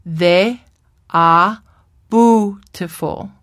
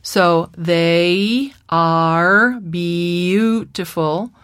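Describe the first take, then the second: First: "bootiful" with plain oo, no yoo glide; child's truncated vowels. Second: "they are beautiful" drawn out, each diphthong glided in full; very slow diphthongs. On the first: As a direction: flatten the diphthongs like a child. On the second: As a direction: stretch every vowel glide very slowly. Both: Shown as a demonstration. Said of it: "will be pronounced".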